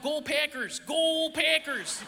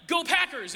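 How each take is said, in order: First: Drawn-out Wisconsin Go Packers; Wisconsin accent. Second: Said in the usual way. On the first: Retold or imitated. Imitating Wisconsin fans chanting, Wisconsin accent. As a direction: stretch Packers slow in broad Wisconsin vowels. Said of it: "It was like". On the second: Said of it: "it wasn't like".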